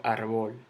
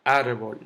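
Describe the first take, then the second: First: "arbol" stressed on the last syllable, ar-BOL; mis-stressed "arbol" as arBÓL; wrong stress on BOL. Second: Said in the usual way. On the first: Shown as a demonstration. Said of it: "Yo no digo". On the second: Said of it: "El golpe de voz está en árbol".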